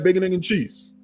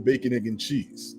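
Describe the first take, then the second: First: The phrase is said quickly and run together. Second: The phrase is said slowly and drawn out. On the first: The speaker calls it right. "You got to be like" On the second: The speaker calls it wrong. "you can't say it slowly like that"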